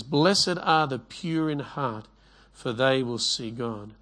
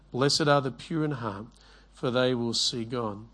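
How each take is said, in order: First: Slow, measured reading of the verse; slow scripture reading. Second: Said in the usual way. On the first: Shown as a demonstration. Preacher reads the verse to his congregation, slow and measured. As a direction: give each word weight, like reading it aloud from the Bible. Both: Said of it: "It says in Matthew five eight".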